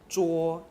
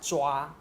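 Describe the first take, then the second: First: The word ends with a rounded 'wo' vowel. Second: The word ends with an open 'wa' vowel. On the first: The speaker calls it wrong. "he also say 捉 instead of 抓" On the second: The speaker calls it right. "instead of 抓"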